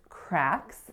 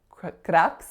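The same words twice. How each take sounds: First: An English A vowel is used, no rolled R. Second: A pure vowel is used with a rolled R. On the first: The speaker calls it right. "it's cracks" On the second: The speaker calls it wrong. "it's not a pure a, it's not cracks. I always put in that rolled R when I try to do a pure vowel"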